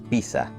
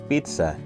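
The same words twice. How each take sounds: First: The zz is sounded as a single hissing sound. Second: The zz is sounded as ts. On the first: The speaker calls it wrong. "en lugar de" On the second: The speaker calls it right. "lo correcto es decir"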